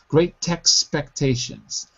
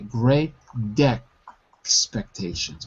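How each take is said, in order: First: A clear T links the two words. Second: A D sound links the two words. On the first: "So expectations becomes text expectations" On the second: "with a D, because I have an American accent"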